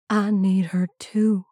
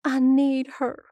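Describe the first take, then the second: First: Slow, understated reply in a father's voice; grieving father. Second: Put-on high, plaintive boy's confession; grieving son. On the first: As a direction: answer your son slowly, lightly voiced as the father. Father answers grieving son. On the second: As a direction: say it high, no longer shouting. Grieving son confides in father. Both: A narrator's reading.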